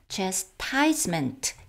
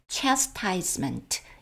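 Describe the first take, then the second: First: The main stress is on the second syllable. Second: The main stress is on the first syllable. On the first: Someone else pronounces it this way. "알씨 스프로께서는 chastisement 이렇게 발음을 하셨습니다" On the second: The speaker pronounces it this way. "저처럼 chastisement 이렇게 발음을 하기도 합니다"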